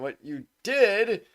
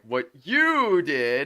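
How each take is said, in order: First: The stress falls on the word "did". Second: The stress falls on the word "you". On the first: The speaker calls it right. "I mean" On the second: The speaker calls it wrong. "enunciating the word before the word that's supposed to be enunciated"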